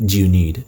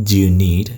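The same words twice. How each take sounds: The two takes are said the same way.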